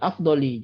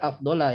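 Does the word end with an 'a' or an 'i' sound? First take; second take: i; a. First: The word ends with a short 'i' sound. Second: The word ends with a short 'a' sound. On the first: The speaker calls it right. "Ya min afdoli" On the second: The speaker calls it wrong. "jangan dibaca afdola ya"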